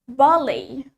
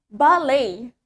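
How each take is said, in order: First: The stress is on the first syllable. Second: The stress is on the second syllable. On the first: This is the British pronunciation. "In British English, the stress in, is in the first syllable" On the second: This is the American pronunciation. "In American accent, the stress penekanannya is on the second syllable"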